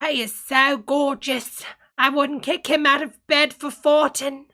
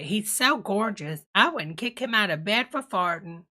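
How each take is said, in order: First: It is said in a put-on posh English voice. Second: It is said in her normal American voice.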